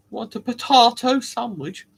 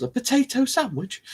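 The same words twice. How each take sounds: First: Higher mock-posh offer, "potahto". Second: High-pitched disbelieving question; baffled by your own words, pitched up; incredulous. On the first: Mocking posh potato eaters, mock-posh question. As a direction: put on a posh accent. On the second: Acted. Host amazed at inventing meals, incredulous.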